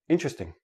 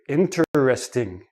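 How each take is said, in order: First: It is run together into three quick syllables. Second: Each of four syllables is said separately and clearly. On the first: It is ordinary everyday speech. "in everyday speech ... it becomes three syllables" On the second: The speaker wants to emphasize the word. "they enunciate each syllable. They say each syllable separately"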